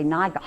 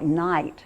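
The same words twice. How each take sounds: First: "Night" with every letter sounded, a hard guttural GH before the T; Old English pronunciation. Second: Said in the usual way. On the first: Shown as a demonstration. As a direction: say "Night" as nig-ht, voicing the silent GH. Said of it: "they pronounced all those sounds". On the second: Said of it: "they would say".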